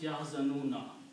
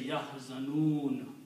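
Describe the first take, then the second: First: The word ends with a final vowel after n. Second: The word ends on the n, vowel dropped. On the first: The recitation continues into the next verse. "if the next ayat continues and you are not start stopping" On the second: The reciter stops at the end of the verse. "you can stop and say yahzanun"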